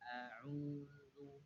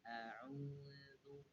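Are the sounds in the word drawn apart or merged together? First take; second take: drawn apart; drawn apart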